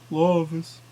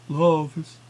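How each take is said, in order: Both takes have the same delivery.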